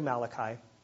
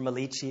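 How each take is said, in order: First: It is said in the speaker's plain accent. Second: It is said in a put-on Italian accent.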